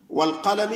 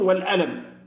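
First: The word is said with a deep q sound. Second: The word is said with a glottal stop. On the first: The speaker calls it right. "بدل أن يقول نون والقلم" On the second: The speaker calls it wrong. "يقول نون والألم"

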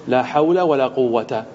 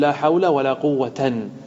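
First: The last word ends with a short a vowel. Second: The last word ends with a plus n. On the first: "الفتح" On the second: "والنصب"

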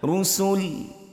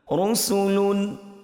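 First: The word ends on the final l consonant. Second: The word ends with the full -un ending. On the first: The reading stops at this word. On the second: The reading continues without stopping.

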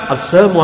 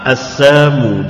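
First: The word is said quickly and blurred. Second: The word is said slowly and clearly. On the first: The greeting can be confused with a curse. "Kalau dicepatkan" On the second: The greeting is clearly heard as peace. "Kalau pelan assalamu, jelas"

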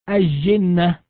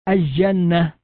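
The two takes are said the same way.

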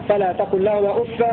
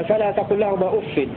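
No difference in how they are said.

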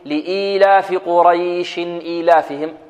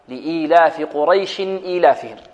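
First: The vowel in the middle word is drawn out long. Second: The vowel in the middle word is kept short. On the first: The speaker calls it wrong. "لا نأتي في الوصل نقول ... لا، خطأ" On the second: The speaker calls it right. "يعني لو وصلنا لا نمد مدا ما"

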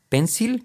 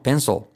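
First: The final L is light and forward. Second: The final L is dark and far back. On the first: The speaker calls it wrong. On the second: The speaker calls it right. "Es como casi no se oye, es muy atrás"

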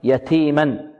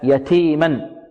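First: The t is released with audible breath. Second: The t is released with audible breath.

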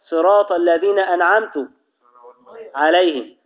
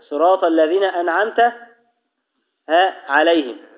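First: The final t of an'amt takes a u vowel. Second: The final t of an'amt takes an a vowel. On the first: The speaker calls it wrong. "لو جاء وضم التاء" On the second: The speaker calls it right. "هنا تاء الخطاب مفتوحة"

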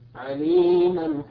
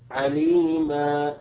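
First: The final vowel is short, running into the next word. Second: The final vowel is lengthened to two beats. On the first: The reciter continues into the next word. "أما إذا وصلنا يسقط هذا المد" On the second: The reciter stops on this word. "إذا أردنا أن نقف عليها نقول عليما، فهنا ثبت المد الأصلي بمقدار حركتين"

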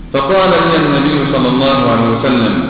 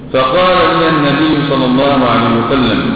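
Both takes have the same delivery.

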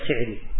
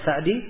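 First: The first vowel of the name is i. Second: The first vowel of the name is a. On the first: The name is traced to a different ancestor. "iya mereka baca Si'di" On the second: The name is traced to the ancestor Sa'ad. "sebagian dari guru-guru kita ada yang membaca Sa'di"

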